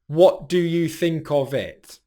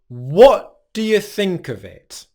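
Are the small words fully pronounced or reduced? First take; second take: fully pronounced; reduced. First: Every word gets even, full stress, sounding flat. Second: Small words are reduced; key words carry stress. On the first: The speaker calls it wrong. "If we were saying every word with even pronunciation and stress, it would sound very, very flat" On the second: The speaker calls it right. "So one more time"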